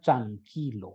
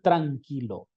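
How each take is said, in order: First: The t and r merge into one sound. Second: The t and r are two separate sounds. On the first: "suena tranquilo" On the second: "no suena tranquilo"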